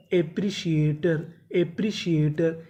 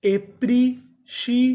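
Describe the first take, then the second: First: Said in the usual way. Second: एप्रिशिएटर stretched slowly, higher and louder; slow drawn-out model word. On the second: Shown as a demonstration. Teacher sounds out एप्रिशिएटर slowly for the class. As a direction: spell out एप्रिशिएटर in slow syllables. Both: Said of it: "तो पूरी meaning क्या बनी?".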